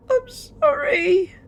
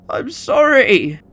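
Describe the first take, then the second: First: Put-on a slow, high sob of a scared boy, much louder; sobbing child. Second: Slow, high, crying sorry; a broken last plea; tearful apology. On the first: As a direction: weep the apology. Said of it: "sobbed the younger Michael". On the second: Acted. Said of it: "eyes began to swell with tears".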